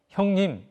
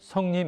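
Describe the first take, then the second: First: The word starts with an 'h' sound. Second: The word starts with an 's' sound. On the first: "히읗 발음은 굉장히 어려운 발음이에요" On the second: "구개음으로 변하게 만드는 건데요"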